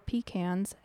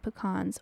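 First: Pecans is said the way Texans say it. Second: Pecans is said the speaker's usual way.

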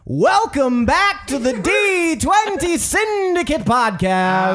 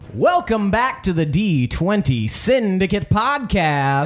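First: It is said with loud, high energy. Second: It is said with ordinary, low energy.

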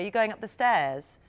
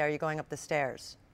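First: It is said in an English accent. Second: It is said in an American accent.

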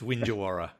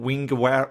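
First: The middle consonant is a 'j' sound. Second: The middle consonant is a hard 'g' sound. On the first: Locals say the name this way. The speaker calls it right. "it's Winjawara" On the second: Callers unfamiliar with the name say it this way. The speaker calls it wrong. "when people ring up and say"

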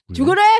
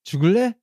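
First: It sounds harsh and threatening. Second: It sounds soft and flirty.

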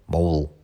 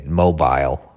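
First: American accent, with the last syllable short. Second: British accent, with the last syllable drawn out. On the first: The speaker calls it right. "You can't just say mobile" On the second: The speaker calls it wrong. "You want to drag that word out like that long?"

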